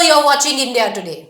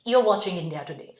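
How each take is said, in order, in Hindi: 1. इसे ज़ोर से बोला गया है, लगभग चिल्लाकर। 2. इसे धीरे से बोला गया है, नियंत्रित जोर के साथ। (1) "उसको चिल्लाने की जरूरत नहीं है" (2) "थोड़ा कंट्रोल करके यही बोलोगी"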